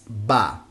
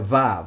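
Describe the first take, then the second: First: It starts with a B sound. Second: It starts with a V sound.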